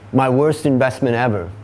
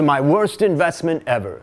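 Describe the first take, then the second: First: It is said in an ordinary, casual speaking voice. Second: It is said in a polished radio announcer voice.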